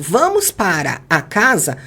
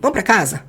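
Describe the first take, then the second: First: Every word is said fully and separately. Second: The words are shortened and run together. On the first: This is the form learned in class. "Vamos treinar isso" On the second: This is what people actually say in Brazil. "que ela vai ouvir?"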